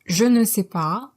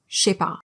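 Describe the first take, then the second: First: All four syllables are said in full. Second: Je fuses into sh, leaving two syllables.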